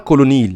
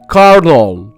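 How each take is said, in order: First: It is said with three syllables and an 'l' sound. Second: It is said with two syllables and an 'r' sound. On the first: The speaker calls it wrong. "هي مش نطقها كولونيل" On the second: The speaker calls it right. "هي بتتنطق كده كارنول"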